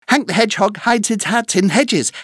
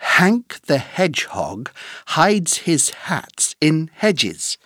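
First: It is said very fast. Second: It is said at a normal speed.

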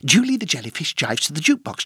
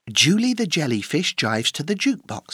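First: The sentence is spoken at a very fast pace. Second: The sentence is spoken at a fast pace. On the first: "Encore plus vite!" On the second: "plus vite!"

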